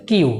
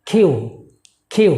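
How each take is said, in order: First: কিউ with an airless k; wrong pronunciation. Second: কিউ with a puff of air on the k; correct pronunciation. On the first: Teacher showing what it is not, unaspirated k. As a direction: say কিউ without a puff. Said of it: "এটা not কিন্তু". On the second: Teacher modelling the correct letter name, aspirated k. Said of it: "the correct one is". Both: Shown as a demonstration.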